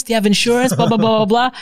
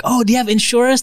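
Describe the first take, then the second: First: Higher, eager sales pitch; mock salesperson. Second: Higher, eager sales pitch; imitating a pushy seller; mock salesperson. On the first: Sales staff pushing insurance, eager mock pitch. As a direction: repeat the pitch with the same eagerness. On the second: Sales staff asking about insurance, eager mock pitch.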